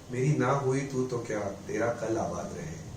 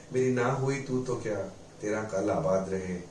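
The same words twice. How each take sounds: Both takes have the same delivery.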